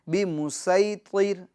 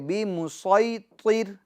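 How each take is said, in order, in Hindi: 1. s की आवाज़ हल्की और सादी है। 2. s की आवाज़ भारी और ज़ोरदार है। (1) "आप इसको यूं नहीं पढ़ सकते बी मुसई, बी मुसई सीन" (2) "बल्कि बी मुसैतिर"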